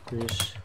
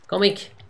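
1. Das Wort endet auf einen sch-Laut. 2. Das Wort endet auf einen k-Laut.

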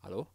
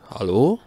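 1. Die Stimme klingt eher leise. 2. Die Stimme klingt zu laut. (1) "hört sich ja mal ein bisschen leise an" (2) "jetzt ist es ein bisschen zu hoch"

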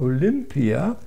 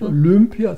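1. Der Vokal nach 'l' klingt wie 'i'. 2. Der Vokal nach 'l' klingt wie 'ü'. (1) "also mit I, sondern Olympia" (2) "nicht Olympia"

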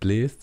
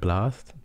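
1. Der Vokal ist der 'ä'-Laut, wie 'e'. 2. Der Vokal ist der einfache 'a'-Laut. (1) "also nicht bläst" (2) "sondern blast, damit sich das reimt"

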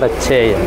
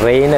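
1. ഈ സ്വരം 'fine'-ലെ സ്വരം പോലെയാണ്. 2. ഈ സ്വരം 'rain'-ലെ സ്വരം പോലെയാണ്. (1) "റെയിൻ അല്ല RHAN" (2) "റെയിൻ അല്ല"

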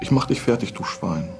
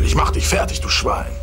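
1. Die Stimme ist weich, schwach und zaghaft. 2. Die Stimme ist angespannt, laut und aggressiv. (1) "Okay, das probieren wir nochmal" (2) "musst du richtig schön Stress in die Stimme legen. Zum Beispiel"

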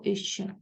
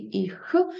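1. Кінцевий приголосний звучить як shch. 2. Кінцевий приголосний — тверда горлова kh. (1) "або «іще»" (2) "Може бути твердий «іх»"

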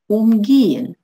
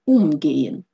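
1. Ударение на втором слоге. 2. Ударение на первом слоге. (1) "Если она безударная, то она не отделяется" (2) "Если она ударная, то она отделяется"

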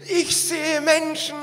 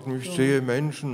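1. Es wird in einem erfreuten, zufriedenen Ton gesagt. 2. Es wird in einem enttäuschten, niedergeschlagenen Ton gesagt.

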